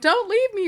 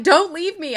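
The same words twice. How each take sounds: First: High, pleading mock shriek; hammed-up clinging plea, much higher; mock desperate scream. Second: Mock scream. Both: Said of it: "I feel like she's just screaming at her".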